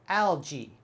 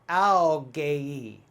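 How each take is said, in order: First: The ending sounds like 'jee'. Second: The ending does not sound like 'jee'. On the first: The speaker calls it right. "the G A E is just like a J E E sound" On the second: The speaker calls it wrong. "If I was to use phonics, I would sound this out"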